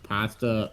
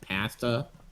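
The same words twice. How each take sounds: First: Pasta is said with a usual American vowel. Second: Pasta is said with a Canadian-style vowel.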